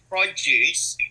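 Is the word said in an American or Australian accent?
Australian. The word is said in an Australian accent. The speaker calls it wrong. "not an American accent, not an Australian accent, but so if I said produce"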